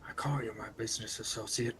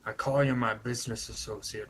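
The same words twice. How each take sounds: First: It is said in a lowered, quieter voice. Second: It is said at a normal, louder volume.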